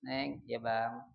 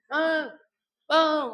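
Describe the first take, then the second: First: Slow, low, softer endearment; unhurried, tender address; calling from close by. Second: High, loud holler for a husband; demonstrated rude yell; yelled call. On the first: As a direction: call your spouse gently from nearby. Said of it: "manggil dari dekat". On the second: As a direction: mimic shouting for a spouse from afar. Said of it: "teriak-teriak". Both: Shown as a demonstration.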